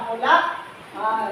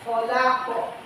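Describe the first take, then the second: First: The q sound stops and breaks off the vowel. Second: The q sound bounces smoothly into the vowel. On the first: The speaker calls it wrong. "cara membaca yang tidak pandai membaca Al-Quran" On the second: The speaker calls it right. "inilah yang memantul itu"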